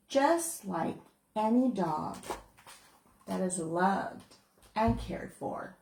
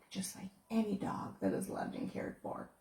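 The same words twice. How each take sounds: First: Said in the usual way. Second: "Just like any dog that is loved and cared for" repeated softly with weight; soft emphatic reread. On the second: Shown as a demonstration. Author rereading her favorite line to listeners, softly and deliberately. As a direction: savor the line, quieter and deliberate. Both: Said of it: "That's the best line in the whole book".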